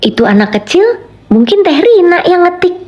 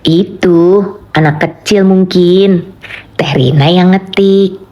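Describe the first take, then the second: First: Second half jumps much higher; rising intonation. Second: Even, slow read of "Itu anak kecil mungkin"; slow level intonation. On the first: Streamer redoing the chat line for viewers, pitch leaping higher. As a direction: lift "mungkin Teh Rina yang ngetik" far up. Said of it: "Nah, ulang lagi". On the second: Streamer showing chat another intonation, slow and level. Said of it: "Kan bisa begitu juga tuh notasinya". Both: Shown as a demonstration.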